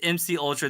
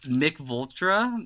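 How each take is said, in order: First: The name begins with two letters, then Ultra. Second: The name begins with a word, then Vultra. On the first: The speaker calls it right. "that's M C Ultra, my guy" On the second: The speaker calls it wrong. "I think that's how you say it"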